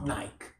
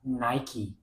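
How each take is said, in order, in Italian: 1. Si dice con una pronuncia italiana. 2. Si dice con una pronuncia inglese. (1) "Come diciamo" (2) "in inglese mi dicono si dica Nike"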